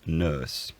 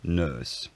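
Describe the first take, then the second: Both takes have the same delivery.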